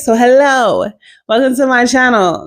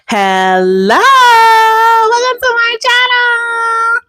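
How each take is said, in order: First: It is said in her natural voice. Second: It is said in a put-on voice.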